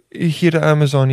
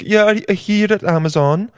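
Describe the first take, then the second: First: Tentative mock Italian accent; rough second go at Italian; Jeff Bezos with Italian accent. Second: Put-on high, lilting Swedish-like accent; bad singsong Scandinavian-Italian accent; failed Italian accent, Swedish-sounding. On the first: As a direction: try a light Italian accent. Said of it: "what does Italian sound like?". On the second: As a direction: attempt Italian and land near Swedish. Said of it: "that's kinda Swedish".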